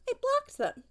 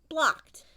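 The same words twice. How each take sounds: First: Blocked jumps way up, then falls hard; stress on blocked. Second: Blocked said alone, short and a bit louder; curt repeat. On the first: Telling the child she cut those people off, stress on blocked. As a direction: hit blocked high and final. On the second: Repeating to the child that she blocked them, curt and final. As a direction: drop Blocked like a door slamming. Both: Real, not acted.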